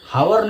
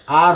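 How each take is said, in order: First: The word starts with an h sound. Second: The word starts without an h sound. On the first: The speaker calls it wrong. "हावर नहीं होता है" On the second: The speaker calls it right. "आर होता है ... ये जो हमारा एच है ये साइलेंट रहता है"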